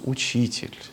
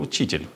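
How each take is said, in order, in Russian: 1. Сказано с благоговейным, почтительным трепетом. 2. Сказано с лёгким раздражением. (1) "с каким-то благоговейным почтением к Иисусу" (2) "с небольшим раздражением"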